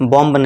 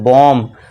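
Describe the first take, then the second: First: The word ends with an audible b sound. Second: The word ends on m with no b. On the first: The speaker calls it wrong. "बॉम्ब नहीं" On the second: The speaker calls it right. "यहाँ पे बी silent हो जाएगा"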